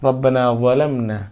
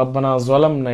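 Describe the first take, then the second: First: "জালামনা" begun with a soft th-like sound, as in "that"; gentle dental start on "জালামনা", no buzz; soft letter. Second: "জালামনা" begun with a hard buzzing z; wrong hard z in "জালামনা"; hard z, mistaken. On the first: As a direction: soften the first sound of "জালামনা". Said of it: "একদম নরম উচ্চারণ করতে হবে". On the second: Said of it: "এটা বলা যাবে না". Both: Shown as a demonstration.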